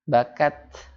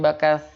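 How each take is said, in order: First: The final consonant is a crisp 't' sound. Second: The final consonant is a soft 'th' sound. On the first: The speaker calls it right. "Padahal harusnya ta" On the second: The speaker calls it wrong. "Dibacanya bakat. Padahal harusnya ta"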